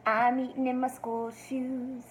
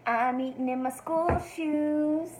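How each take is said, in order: Both takes have the same delivery.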